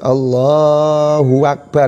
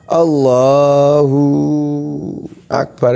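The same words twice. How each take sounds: First: An extra wa is inserted before Akbar. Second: The hu is lengthened into a long u. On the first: "yang harokat" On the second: "itu kan hu-nya itu ada wawu yang sakinah"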